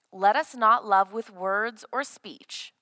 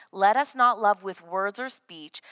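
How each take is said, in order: The two takes are said the same way.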